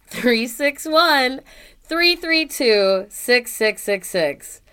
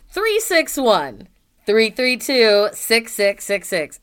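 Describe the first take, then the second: First: Slow and deliberate. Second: Each digit slow and clear; slowly spelled out. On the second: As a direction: read the number slowly for listeners. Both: Shown as a demonstration. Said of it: "if any of you didn't catch that".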